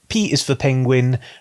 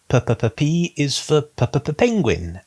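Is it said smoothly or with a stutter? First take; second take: smooth; stuttered. First: The words are said smoothly without stuttering. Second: The words are stuttered on the P sounds.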